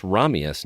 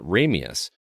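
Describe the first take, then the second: First: Ramius with an open "rah"; correct Russian pronunciation. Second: Ramius with a "ray" opening; rejected pronunciation. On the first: Friend correcting the name, RAH-mee-us Ramius. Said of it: "it is pronounced Ramius". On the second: Friend ruling out the film's way, RAY-mee-us Ramius. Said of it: "not Ramius". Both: Retold or imitated.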